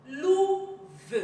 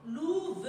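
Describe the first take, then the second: First: "Louve" split, high loud held "lou", then separate "ve"; syllable by syllable. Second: Said in the usual way. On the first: Shown as a demonstration. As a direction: sound out "Louve" in two beats. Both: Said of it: "on le lit syllabe par syllabe".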